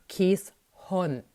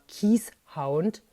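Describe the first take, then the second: First: The second part is said like Dutch 'hond'. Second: The second part is said like English 'hound'. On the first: The speaker calls it right. "Der Name Keeshond spricht sich eben Keeshond" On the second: The speaker calls it wrong. "Ganz falsch ist die Aussprache Keeshound"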